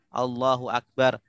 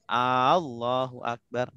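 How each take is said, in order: First: No vowel is lengthened beyond normal. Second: The opening vowel is drawn out long. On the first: God is the greatest. The speaker calls it right. "takbir juga rukun" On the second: It asks whether God is great. The speaker calls it wrong. "Kalau A-nya panjang"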